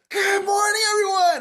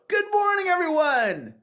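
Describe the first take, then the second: First: It is said with full, maximal energy. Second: It is said with moderate energy.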